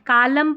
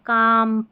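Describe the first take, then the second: First: An l sound is heard before m. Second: No l sound is heard before m. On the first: The speaker calls it wrong. "कालम पालम बालम नहीं" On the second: The speaker calls it right. "यहाँ पर एल silent है"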